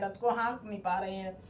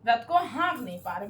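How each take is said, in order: First: रथ को हाँक नहीं पा रहे हैं said again, much softer and dropping; a hushed echo of the line; softer repeat. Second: Said in the usual way. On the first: Shown as a demonstration. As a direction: let the repeat sink quietly. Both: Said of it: "repeats line for emphasis".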